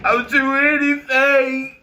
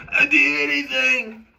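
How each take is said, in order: First: High, slow whiny "I'll do anything"; mock desperate plea. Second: High whiny "I'll do anything" again; mock desperate plea. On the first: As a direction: whine it like a begging fan. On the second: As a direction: beg it in a whiny voice. Second take, same mock. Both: Mocking eager followers in a high whiny plea.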